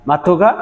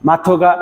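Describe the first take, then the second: Both takes have the same delivery.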